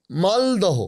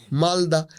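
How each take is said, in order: First: মালদহ said as written with the final h, maldoh; spelled form. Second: মালদা with the h dropped, malda; spoken form. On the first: Guest reading the signboard name aloud, with the h. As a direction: read মালদহ out, keeping the h. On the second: Guest saying the name as people really do, no h. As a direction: say মালদা the everyday way, no h. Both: Shown as a demonstration. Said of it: "আমরা বলি".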